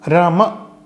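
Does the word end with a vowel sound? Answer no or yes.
yes. The final vowel is clearly pronounced. This is how South Indians say it. "Rama in South India"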